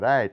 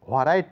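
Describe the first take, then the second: First: The w is silent. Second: The w is pronounced. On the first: The speaker calls it right. "এখানে ডাব্লিউ কোনো উচ্চারণ নেই" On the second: The speaker calls it wrong. "নয়"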